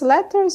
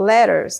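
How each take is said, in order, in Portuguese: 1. O t do meio é um som de t claro. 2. O t do meio soa como um r rápido.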